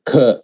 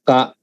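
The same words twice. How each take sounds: First: "k" as kha, with an added H; aspirated K. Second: Said in the usual way. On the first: Shown as a demonstration. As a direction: puff air out after "k", as in kh. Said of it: "with the K H is". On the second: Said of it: "normal K".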